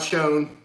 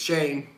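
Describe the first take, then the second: First: The name is said with an 'oh' vowel. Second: The name is said with an 'ay' vowel. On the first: The speaker calls it wrong. "not Shone" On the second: The speaker calls it right. "It's Shane"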